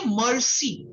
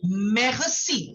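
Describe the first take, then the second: First: Merci said slowly as students wrongly do. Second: Merci with the French throat R, slowly; right merci. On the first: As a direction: slowly imitate the common mistake on merci. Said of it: "students make a lot of mistake". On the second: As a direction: slowly stress the correct merci. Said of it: "It is merci". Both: Shown as a demonstration.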